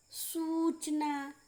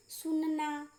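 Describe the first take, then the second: First: सूचना slowly, with a drawn-out oo; long u. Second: सुनना with a brief u in the first syllable; short u. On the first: Teacher recapping long vowels, held oo in सूचना. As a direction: stretch the first vowel of सूचना. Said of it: "ज़्यादा समय लगता है". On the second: Teacher recapping short vowels, brief u in सुनना. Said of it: "उसमें कम समय लग रहा है". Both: Shown as a demonstration.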